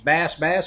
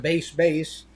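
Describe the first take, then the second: First: The vowel is short, as in 'bass' fish. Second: The vowel is long, as in 'base'. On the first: "I don't know if this is Bass Bass" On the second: "or Base Base"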